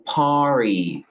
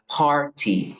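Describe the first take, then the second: First: American accent, the T sounds like an R. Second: British accent, with a clear T sound. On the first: "en inglés americano, esto sonaría party" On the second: "en inglés británico, diría party. Sí, aquí suena la T"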